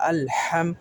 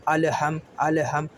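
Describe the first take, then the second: First: الحم with a clean, unflipped lam; correct lam. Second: الحم with the lam sound turned and flipped; wrong rolled lam. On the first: Teacher modelling the correct الحم for students. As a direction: say الحم with the lam held straight. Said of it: "لام کو پلٹنے بھی نہیں دینا". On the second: Teacher showing a common mistake on الحم. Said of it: "لام کی آواز پلٹا رہے ہیں". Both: Shown as a demonstration.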